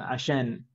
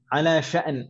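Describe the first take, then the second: First: It is clipped into one short, fast word. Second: It is said as two full, separate words. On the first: Modern Arabs say it this way in fast speech. "ngomongnya lebih cepat, jadi lebih cepat lagi jadinya asyan" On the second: This is the original Arabic form.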